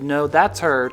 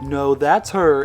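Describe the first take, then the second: First: It is said in a plain, sincere voice. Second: It is said in a mocking, teasing voice.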